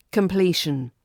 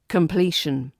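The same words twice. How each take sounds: The two takes are said the same way.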